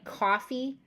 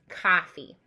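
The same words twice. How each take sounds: First: Said in the usual way. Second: "coffee" with a broad open ah; loud Boston vowel in "coffee". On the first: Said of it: "We would say, obviously". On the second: Shown as a demonstration. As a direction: say "coffee" as cah-fee. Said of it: "in the Boston language".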